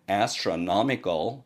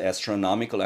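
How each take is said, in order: First: Both the 'as' and 'no' syllables are strongly stressed. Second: Only the 'no' syllable is strongly stressed. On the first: The speaker calls it right. "제이 강세를 제일 강세만큼이나 넣어버립니다" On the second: The speaker calls it wrong. "astronomical 아니고"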